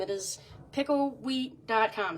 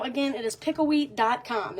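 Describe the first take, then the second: First: Slow, careful repeat. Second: Said in the usual way. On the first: Shown as a demonstration.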